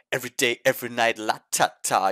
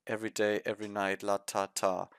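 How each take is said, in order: First: Lively, emotional sung line. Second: Flat, soft, lifeless mumble; monotonous. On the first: Shown as a demonstration. Reviewer showing how it should be sung. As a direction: give it some feeling. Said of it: "put some emotion into it". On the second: Retold or imitated. Reviewer mocking the idols' monotonous delivery. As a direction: drone it with no emotion. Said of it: "the way they're saying was".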